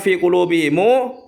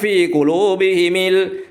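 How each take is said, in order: First: The mim is followed by a u vowel. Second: The mim is followed by an i vowel. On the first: This follows the reading written in the common mushaf. "seperti yang ada di Al-Qur'an kita itu" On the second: This follows another valid reading among scholars. "bi kasril ha wal mim"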